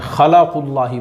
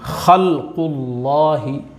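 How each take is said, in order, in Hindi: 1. l आवाज़ के बाद एक अतिरिक्त 'a' स्वर आता है। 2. l आवाज़ q के साथ बिना किसी स्वर के जुड़ती है। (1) "वो लाम पे ज़बर, ज़बर नहीं है लाम पे" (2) "पूरा वाज़े होना चाहिए लाम पे का जज़्म। ... इस तरह से।"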